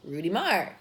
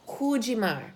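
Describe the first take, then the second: First: It is said with an English accent. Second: It is said with a Portuguese accent. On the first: "to saying" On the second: "transform our brain from saying"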